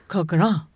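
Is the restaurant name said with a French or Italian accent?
French. The name is said with a French-sounding accent. The speaker calls it right. "It's Coqueronne. Or something like that"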